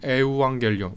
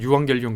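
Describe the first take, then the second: First: The word begins with separate vowels 'e-u'. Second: The word begins with a gliding 'yu' sound. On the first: The speaker calls it wrong. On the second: The speaker calls it right.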